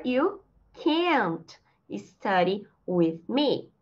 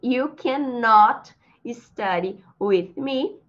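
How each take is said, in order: First: Very slow, "can't" drawn into one long syllable; slow teacher's model of "can't"; contracted CAN'T. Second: Slow negative example, "cannot" in two full syllables; deliberate model sentence with a full "cannot"; uncontracted CANNOT. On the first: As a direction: stretch "can't", pausing after it. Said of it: "Usando a contração". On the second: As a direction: spell out "cannot" slowly by voice. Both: Shown as a demonstration.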